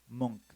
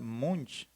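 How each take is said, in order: First: The name ends with a k sound. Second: The name ends with a ch sound. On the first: It follows the Norwegian pronunciation. "la C H al final se escucha como K" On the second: It follows a Spanish reading of the spelling. "como se puede leer en español"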